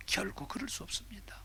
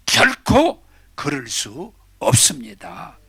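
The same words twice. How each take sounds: First: Whispered, breathy denial; hushed answer. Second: Slow, drawn-out 결코 with a heavy fall; emphatic declaration. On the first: Preacher whispers to the congregation that it can never be. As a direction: drop to a whisper on 결코. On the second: Preacher declares to the congregation it can never be. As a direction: proclaim it word by word. Preacher answers his own question. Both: Real, not acted.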